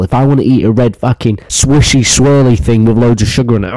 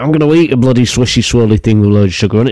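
First: Said in the usual way. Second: Fast rant. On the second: Real, not acted. Ranting to viewers that he'll eat what he wants, fast. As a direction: repeat it faster, rattling the words off. Ranting repeat of his demand.

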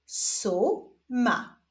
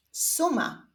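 First: Stretched first syllable, pause, then second; drawn-out, divided syllables; syllable reading. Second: Said in the usual way. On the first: Shown as a demonstration. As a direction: read it slowly as two separate syllables. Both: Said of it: "zapraszam Was do odczytywania sylab".

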